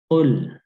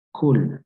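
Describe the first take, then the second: First: The first sound is made deep in the throat. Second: The first sound is a k made in the mouth. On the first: The speaker calls it right. "tapi berada di eh, kerongkongan atau di tenggorokan" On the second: The speaker calls it wrong. "jangan sampai kita seperti mengucapkan huruf kaf"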